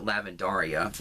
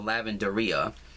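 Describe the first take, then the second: First: The ending sounds like the name Daria. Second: The ending does not sound like Daria.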